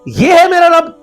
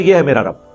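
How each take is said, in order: First: It is said as a questioning remark. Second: It is said as a plain statement.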